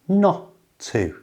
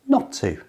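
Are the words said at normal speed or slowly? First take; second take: slowly; normal speed. First: The words are said slowly and carefully. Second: The words are said at normal conversational speed. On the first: "So slowly it's not to" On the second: "And at normal speed"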